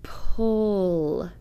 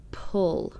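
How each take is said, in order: First: Drawn-out Pull; sounded out slowly. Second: Quick plain Pull; read quickly. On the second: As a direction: Pull said quickly as one whole word. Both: Shown as a demonstration. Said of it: "The exception word should be read like this".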